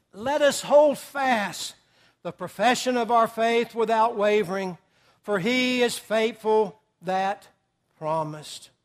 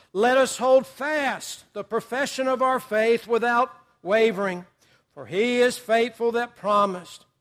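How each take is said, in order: No difference in how they are said.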